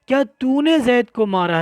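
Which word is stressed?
तूने. The word तूने carries the stress. Who did the hitting is what is being confirmed. "अब मारा पर जोर नहीं लगाएंगे"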